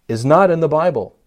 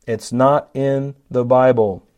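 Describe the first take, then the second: First: Said in the usual way. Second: "not" leaned on, whole line slowed down; slow stress on not. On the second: Shown as a demonstration. Preacher repeating it slowly, pressing "not". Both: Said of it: "gasping with horror when I say that".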